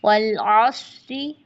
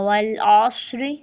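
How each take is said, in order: First: अस्र ending "अस्रि", ra thin; drawn-out वल अस्रि with a thin ra. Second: अस्र ending in a thin ri; thin ra joined. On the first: Teacher repeating connected reading slowly. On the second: Teacher showing the connected reading, thin ra. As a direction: join अस्र on with a light री. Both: Shown as a demonstration. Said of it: "फिर रॉ बारीक पढ़ा जाएगा".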